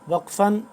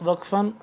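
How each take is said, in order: The two takes are said the same way.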